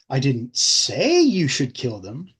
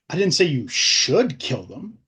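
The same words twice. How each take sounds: First: The stress falls on the word 'say'. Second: The stress falls on the word 'should'.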